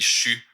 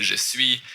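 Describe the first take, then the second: First: "je suis" said as "chu"; Quebec contraction. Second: Said in the usual way. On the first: Shown as a demonstration. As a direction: squeeze "je suis" into one syllable, "chu". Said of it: "quand je parle en québécois". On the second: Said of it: "au lieu de dire".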